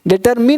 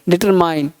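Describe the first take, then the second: First: The last syllable sounds like 'min'. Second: The last syllable sounds like 'mine'. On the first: The speaker calls it wrong. "डिटरमिन नहीं" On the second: The speaker calls it right. "नहीं डिटरमाइन"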